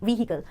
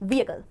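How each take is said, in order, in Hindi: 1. h sound तेज़ और अलग है। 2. h साउंड हल्का और मिला हुआ है। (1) "जो बहुत गलत प्रोनाउंसिएशन है वो है व्हीकल" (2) "एच साउंड बहुत डोमिनेंट नहीं है ये बहुत ही स्लाइट बहुत सटल साउंड है"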